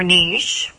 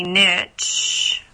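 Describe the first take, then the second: First: Niche said to rhyme with leash; pronounced "neesh". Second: Niche said to rhyme with rich; pronounced "nitch". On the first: Coach offering listeners the alternative pronunciation of niche, said "neesh". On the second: Coach offering listeners one pronunciation of niche, said "nitch". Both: Shown as a demonstration. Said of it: "a niche or niche".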